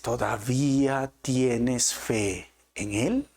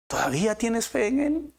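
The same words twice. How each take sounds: First: Drawn out slowly, each word weighed; slow searching question. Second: Pitched up high, pressing the question; urgent repeat. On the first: Preacher asking the congregation, slow and searching. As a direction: let the question hang, very slowly. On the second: Preacher pressing his listeners, high and urgent. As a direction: push it again, higher and urgent. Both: Shown as a demonstration.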